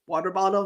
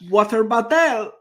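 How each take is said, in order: First: It is said in plain English. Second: It is said with a mock French ending.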